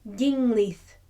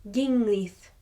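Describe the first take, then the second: The two takes are said the same way.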